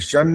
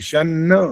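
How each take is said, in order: First: The n sound is short and single. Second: The n sound is held and doubled. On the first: The speaker calls it wrong. "शन नहीं" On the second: The speaker calls it right.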